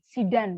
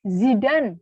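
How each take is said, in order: First: The name begins with a hissing s sound. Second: The name begins with a buzzing z sound. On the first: The speaker calls it wrong. "bukan Zidane" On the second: The speaker calls it right. "Z, ya. Seperti Zidane"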